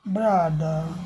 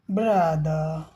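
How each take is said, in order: No difference in how they are said.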